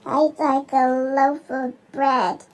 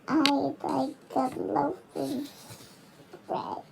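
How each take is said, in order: First: It is said loudly, booming. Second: It is said quietly and softly.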